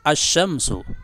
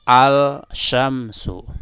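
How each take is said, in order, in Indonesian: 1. L melebur menjadi bunyi sh yang ganda. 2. L diucapkan dengan jelas sebelum sh. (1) "al pada asy-syamsu itu diidghamkan atau dimasukkan pada huruf shin" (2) "tidak benar apabila engkau mengatakan gini, ... Itu salah"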